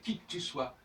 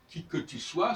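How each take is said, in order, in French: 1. La voyelle de 'que' est omise. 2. La voyelle de 'que' est prononcée.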